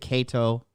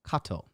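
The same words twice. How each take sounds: First: The name is said with English pronunciation. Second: The name is said with Latin pronunciation. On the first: "English stuff. It's fine to say Cato" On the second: "Latin pronunciation is Cato"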